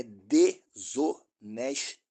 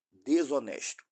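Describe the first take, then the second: First: "desonesto" broken into separate syllables; "desonesto" in slow, separated beats. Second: Said in the usual way. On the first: Real, not acted. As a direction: spell out "desonesto" syllable by syllable, de-so-nes-to. Spells out the accusation by syllables.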